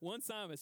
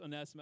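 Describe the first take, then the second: First: It starts with the word 'one', then 'Simus'. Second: It starts with 'oh' as one flowing name. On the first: The speaker calls it wrong. "I thought it was one Simus" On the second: The speaker calls it right. "no, it's Onesimus"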